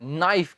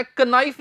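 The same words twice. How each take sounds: First: ਨਾਈਫ with a silent k, starting on the n; ਨਾਈਫ, slow and careful as the right form; correct pronunciation. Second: ਕਨਾਈਫ with the k sounded; ਕਨਾਈਫ, k pronounced as a mistake; wrong pronunciation. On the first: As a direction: say ਨਾਈਫ slowly, no k. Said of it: "ਕਨਾਈਫ ਨਹੀਂ ਕਹਿਣੀ". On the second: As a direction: say ਕਨਾਈਫ with a spoken k at the start. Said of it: "ਉਹ ਹੈ ਨਾਈਫ". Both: Shown as a demonstration.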